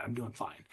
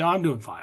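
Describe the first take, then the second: First: The same words, suddenly much softer; dropped to near silence. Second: Said in the usual way. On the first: Shown as a demonstration. Telling the outside world he is fine, barely audible. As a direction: let the cheerful lie fall away to almost nothing. Repeating his public answer.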